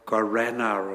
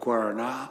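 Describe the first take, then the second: First: It is said with an Australian English pronunciation. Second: It is said with a Brazilian Portuguese pronunciation. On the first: This is how locals in Australia say it. "I can't say it in Australian, but it's something like guarana" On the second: This is how the speaker's family says it. "my kids and I call it guarana"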